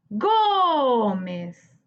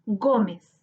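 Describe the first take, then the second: First: "Gómez" with a very long, held GÓ; stressed syllable stretched. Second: Said in the usual way. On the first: Shown as a demonstration. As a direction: hold the first syllable of "Gómez", then drop to mez. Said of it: "Busquemos la sílaba tónica". ("Gómez" alargando mucho la sílaba tónica GÓ) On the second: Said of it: "Te presentamos la palabra".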